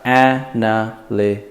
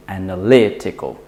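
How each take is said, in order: First: Analytical split into a-na-ly-ti-cal with gaps; syllable by syllable. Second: Analytical joined up, LY strongest; stress on LY. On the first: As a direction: spell out each syllable of "analytical" evenly. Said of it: "So we've got". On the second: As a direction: stress "analytical" on LY, the syllable before "tical". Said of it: "So we say analytical". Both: Shown as a demonstration.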